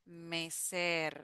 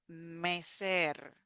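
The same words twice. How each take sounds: The two takes are said the same way.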